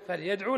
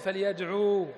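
First: The verb ends in a short u vowel. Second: The verb ends in a long u vowel. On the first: The speaker calls it right. "فحذفنا الواو وبقي يدل عليها الضمة" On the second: The speaker calls it wrong. "ما نقول فليدعو"

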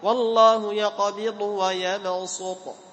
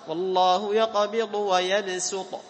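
First: The s in yabsut is an emphatic s. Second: The s in yabsut is a plain s. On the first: "ولك أن تقرأ بالصاد" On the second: "لك أن تقرأ بالسين"

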